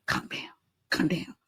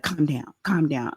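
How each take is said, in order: First: Breathy whispered calm down, calm down; imagined whisper. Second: Said in the usual way. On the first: Retold or imitated. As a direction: whisper it like soothing a man in a headlock. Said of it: "my imagination is". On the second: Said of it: "he's like".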